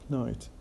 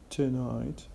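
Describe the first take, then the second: First: The first vowel is dropped entirely. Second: The first vowel is clearly pronounced. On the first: "we drop the schwa and we only pronounce the te" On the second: "instead of saying tonight"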